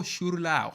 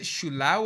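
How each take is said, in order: First: Shurlao with an r after the first vowel; "Shurlao", r before the lao; trying another pronunciation. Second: Shulao said without an r, shoo-LAO; "Shulao", r-less first syllable; trying a pronunciation. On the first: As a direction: try the name Shurlao, sounding the r. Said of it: "How do I say that?". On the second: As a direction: try the name Shulao as two syllables, no r. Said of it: "did I ever say that right?". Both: Shown as a demonstration.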